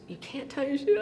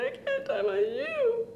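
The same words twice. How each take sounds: First: Higher-pitched, rising query; puzzled question. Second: Slow, very high mock wail; crying and wailing. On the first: Retold or imitated. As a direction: imitate a baffled big brother asking. Brother questioning his crying little sister. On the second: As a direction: imitate a small child bawling the words. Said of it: "I was crying and crying".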